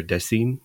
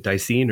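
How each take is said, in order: First: Dasein said as "DEH-seen"; alternative pronunciation. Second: Dasein said as "DIE-seen"; first pronunciation option. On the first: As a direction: say Dasein with a short "eh" in the first syllable. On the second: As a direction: say Dasein with an "eye" in the first syllable. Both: Shown as a demonstration. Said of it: "Is it Dasein or Dasein?".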